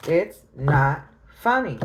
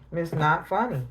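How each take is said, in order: First: Slowed, firm "It's not funny."; slow, stern "It's not funny."; slow firm repeat. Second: Said in the usual way. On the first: Shown as a demonstration. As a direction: lean on every word of "It's not funny.".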